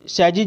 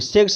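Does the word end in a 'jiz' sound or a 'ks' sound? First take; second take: jiz; ks. First: The word ends with a 'jiz' sound. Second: The word ends with a 'ks' sound. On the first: The speaker calls it right. "सैजीज बोलेंगे" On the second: The speaker calls it wrong. "सेक्स नहीं बोलिएगा"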